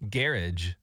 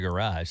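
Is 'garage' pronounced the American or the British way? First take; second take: British; American. First: The word is pronounced in a British way. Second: The word is pronounced in an American way.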